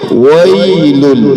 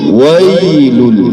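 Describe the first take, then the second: Both takes have the same delivery.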